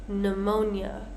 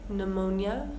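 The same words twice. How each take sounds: Both takes have the same delivery.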